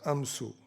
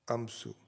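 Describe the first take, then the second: First: The word ends with a 'u' vowel. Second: The same.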